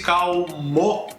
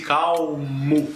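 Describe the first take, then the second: First: Calmo ending in a full O; wrong final O. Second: Calmo slowly with final U, kawmu. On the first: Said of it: "Eu não disse calmo". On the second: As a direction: stretch calmo ending in U. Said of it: "eu disse calmo". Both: Shown as a demonstration.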